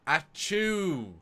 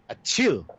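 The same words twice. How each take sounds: First: High, spoken-out achoo, drawn long; Brent's blunt achoo. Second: Big drawn-out achoo; hearty fake sneeze. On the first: Retold or imitated. Host imitates actor's Data sneeze, blunt high achoo. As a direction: say the sneeze as a bare word. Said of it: "the most blunt saying it". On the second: Shown as a demonstration. Co-host shows how Data should sneeze, hearty loud achoo. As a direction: put your back into the achoo. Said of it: "put your back into it".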